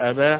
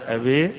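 First: The final vowel is a fully open a. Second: The final vowel is strongly raised toward i. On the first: "لا فتح مفتوح" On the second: "ولا إضجاع"

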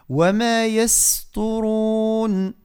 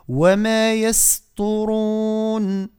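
The two takes are said the same way.

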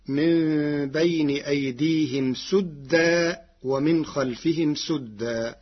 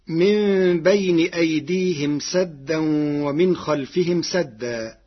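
First: The word sadda begins with a u vowel. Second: The word sadda begins with an a vowel.

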